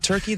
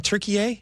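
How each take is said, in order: First: Said in the usual way. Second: "Turkey, eh" as three syllables, Tur-kee-AY; "Turkey, eh" pronounced Türkiye; international pronunciation. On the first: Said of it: "not Turkey". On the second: Shown as a demonstration. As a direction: say "Turkey, eh" as one name with a final "ay". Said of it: "They're saying Turkey".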